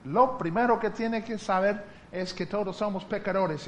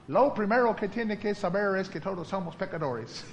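First: Said in the usual way. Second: Memorized line with laughter; laughing quote. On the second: Retold or imitated. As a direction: quote dad through a laugh. (citando al papá entre risas)

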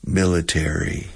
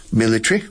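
First: "Military" with a full "tary", MIL-i-terry; American military. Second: "Military" squeezed to MIL-i-try, pitched up; British military. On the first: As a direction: say "Military" the American way, four syllables. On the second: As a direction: say "Military" the British way, three syllables. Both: Shown as a demonstration. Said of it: "For example".

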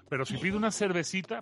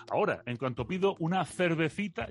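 First: "cervecita" said with plain s sounds, servesita, Andalusian seseo. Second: "cervecita" said with th sounds, thervethita, Spain style; Castilian lisp on cervecita. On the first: Andalusian speaker showing how Mexicans can't place him, seseo. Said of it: "que no saben de dónde soy". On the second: Andalusian speaker showing the Spain-style ordering of a beer, Castilian th. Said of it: "Tú eres español". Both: Shown as a demonstration.

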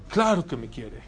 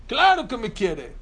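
First: Put-on low-pitched first reply of a child; a hint of a tearful kid, pitched low; imitated crying child. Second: Higher, louder mock protest; insistent crying child. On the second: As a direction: insist like an upset kid, voice jumping up. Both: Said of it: "pero llorando".

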